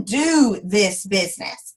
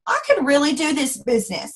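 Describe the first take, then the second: First: "do" stretched and leaned on; slow, weighted "do this business"; stress on do. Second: Said in the usual way. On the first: Shown as a demonstration. Correcting herself to the team, "do" stressed slowly. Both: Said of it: "Like, I mean".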